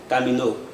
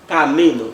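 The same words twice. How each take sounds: First: The stress is not on the middle syllable. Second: The stress is on the middle syllable. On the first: The speaker calls it wrong. "No se puede decir tampoco camino" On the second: The speaker calls it right. "on doit dire normalement camino"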